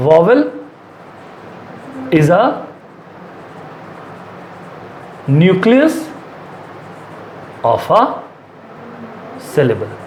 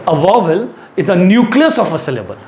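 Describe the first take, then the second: First: Broken into chunks with long gaps; dictating while writing. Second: Said in the usual way. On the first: Real, not acted. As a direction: speak word by word, pausing to write each. (लिखते समय एक-एक शब्द रुक कर बोलना) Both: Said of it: "मैं लिख देता हूँ".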